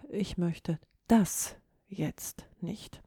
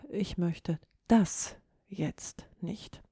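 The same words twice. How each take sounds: First: The stress falls on the word das. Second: The stress falls on the word das.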